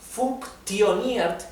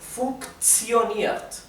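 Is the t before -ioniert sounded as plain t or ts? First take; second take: t; ts. First: The t is sounded as a plain t. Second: The t is sounded as ts. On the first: The speaker calls it wrong. "en vez de pronunciarse funktioniert" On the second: The speaker calls it right. "sería funktioniert"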